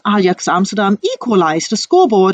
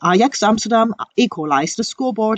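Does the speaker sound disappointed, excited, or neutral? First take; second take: excited; neutral. First: It is said in an excited tone. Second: It is said in a neutral tone. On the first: "they are quite excited to speak out this sentence" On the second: "you can feel that they keep neutral of that"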